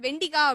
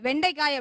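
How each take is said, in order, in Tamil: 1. நடு உயிரெழுத்து ஒரு குறுகிய 'i' ஒலி. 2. நடு உயிரெழுத்து ஒரு 'ai' இரட்டை உயிர் ஒலி. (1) "நான் வந்து அன்னைக்கு சாப்பிடும்போது வெண்டிக்காய் அப்படின்னு" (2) "அவங்க வந்துட்டு வெண்டைக்காய் அப்படி சொன்னாங்க"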